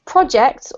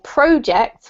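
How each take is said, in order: First: The stress is on the second syllable. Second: The stress is on the first syllable. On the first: It is used as a verb. "because it's a verb, we have to emphasize the second syllable" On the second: It is used as a noun. "with the emphasis on the first syllable if it's a noun"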